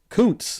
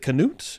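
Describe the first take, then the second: First: The name is said without extra syllables. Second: The name is said with extra syllables. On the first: The speaker calls it right. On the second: The speaker calls it wrong.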